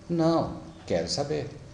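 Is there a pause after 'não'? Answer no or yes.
yes. It is said with a pause after não. The person does want to know. "Então é diferente, você tem que prestar atenção na entonação"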